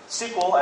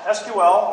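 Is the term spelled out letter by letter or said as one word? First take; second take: one word; letters. First: The term is said as one word, sequel. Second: The term is spelled out as separate letters. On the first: The speaker calls it wrong. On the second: The speaker calls it right.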